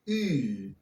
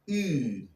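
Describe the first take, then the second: First: The vowel is made further forward in the mouth. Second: The vowel is made further forward in the mouth.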